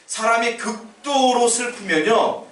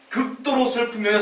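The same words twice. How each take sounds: First: 극도로 stretched out slow and higher; slow emphasis. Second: 극도로 said again, higher and pressed; stress on 극도로. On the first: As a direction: lean on 극도로, drawing it out. (극도로를 길게 끌며 강조) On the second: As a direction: repeat 극도로 with a lifted stress. (극도로를 다시 높게 눌러 강조) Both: Shown as a demonstration.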